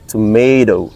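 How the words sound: It is American, with the t sounding like d. "in other countries like United States of America, they would say or they pronounce exact like this"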